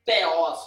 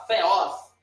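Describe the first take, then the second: First: THEOS with a hard, unblown opening stop. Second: THEOS with a half-blown, airy T; breath-puffed, almost F-like start on THEOS; aspirated T. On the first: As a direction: pop the first consonant of THEOS without any breath. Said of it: "não fala". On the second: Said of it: "É um T meio soprado". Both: Shown as a demonstration.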